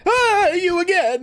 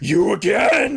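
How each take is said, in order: First: It sounds frightened rather than angry. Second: It sounds angry and annoyed.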